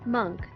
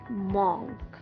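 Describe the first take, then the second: First: The vowel is an 'uh' sound. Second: The vowel is an 'oh' sound. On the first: The speaker calls it right. "The O sound in the word monk is pronounced as U H" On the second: The speaker calls it wrong. "It's not O"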